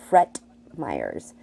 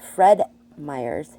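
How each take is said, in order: First: The first word ends with a T sound. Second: The first word ends with a D sound. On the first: The speaker calls it wrong. "he would say Fret Myers" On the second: The speaker calls it right. "instead of Fred Myers"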